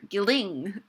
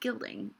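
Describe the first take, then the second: First: The stress is on the second syllable. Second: The stress is on the first syllable. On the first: The speaker calls it wrong. "you don't say" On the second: The speaker calls it right. "you say gilding. So in those lines, it's flipped"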